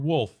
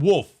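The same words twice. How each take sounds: First: The l sound is clearly pronounced. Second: The l is dropped, sounding like woof. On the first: The speaker calls it right. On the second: The speaker calls it wrong.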